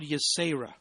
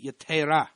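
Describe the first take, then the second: First: The middle consonant is an S sound. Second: The middle consonant is a T sound.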